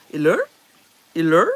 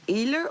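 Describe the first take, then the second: First: "Iller" stressed on LER, rising; stress on second syllable. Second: "iller" stressed on IL; stress on first syllable. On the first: Trying the other accent for viewers, "Iller" stressed on LER. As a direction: push the LER of "Iller" up like a question. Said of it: "or the second syllable". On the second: Asking viewers where the accent falls, "iller" stressed on IL. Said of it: "is that where the accent is". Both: Shown as a demonstration.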